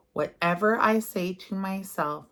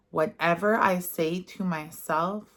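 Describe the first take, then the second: First: Whisper. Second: Said in the usual way. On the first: Shown as a demonstration. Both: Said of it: "And say this affirmation".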